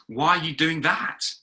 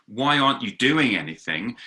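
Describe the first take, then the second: First: Higher pitch, rising right up on "that"; incredulous question. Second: Said in the usual way. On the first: Acted. Habakkuk's second question to God, incredulous rise on "that". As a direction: question it in disbelief, lifting "that" high. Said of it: "his second question is". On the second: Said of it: "his first question was".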